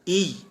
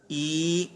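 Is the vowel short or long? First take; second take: short; long. First: The vowel is short, not stretched. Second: The vowel is stretched out long. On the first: The speaker calls it wrong. "ई यूं नहीं पढ़ना" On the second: The speaker calls it right. "तो लिहाजा हमने इसे खींचा, ई यूं हमने पढ़ा"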